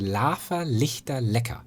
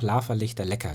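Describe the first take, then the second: First: The phrase is spoken slowly and carefully. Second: The phrase is spoken at normal conversational speed.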